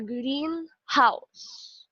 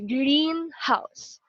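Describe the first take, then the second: First: The stress falls on the second word. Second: The stress falls on the first word. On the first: It is a house painted green. "the second element or the noun is the one that is stressed" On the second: It is a glass enclosed garden. "normally the stress will be in the first syllable or the first uh, word"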